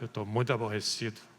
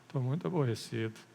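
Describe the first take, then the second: First: It is said in an irritated tone. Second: It is said in an upset tone.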